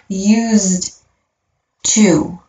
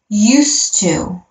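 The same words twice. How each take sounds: First: Each word is pronounced clearly and separately. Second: The two words blend into one smooth sound. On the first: The speaker calls it wrong. "not used to" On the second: The speaker calls it right. "this one definitely has some blending here. So when I pronounce that, I'm going to say used to"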